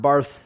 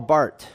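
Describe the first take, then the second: First: The name ends in a th sound. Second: The name ends in a plain t sound. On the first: The speaker calls it wrong. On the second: The speaker calls it right.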